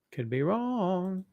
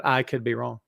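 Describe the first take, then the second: First: "wrong" stretched slowly, rising high and soft; drawn-out WRONG. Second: Said in the usual way. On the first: Real, not acted. Host doubting his own prediction, drawn-out "wrong". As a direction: draw out "wrong" long and high.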